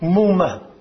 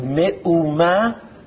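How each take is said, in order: First: It is said quickly, the middle sound dropped. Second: Each syllable is said separately and slowly. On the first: "You say it quickly. The aleph sort of disappears" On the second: "which I say syllabically"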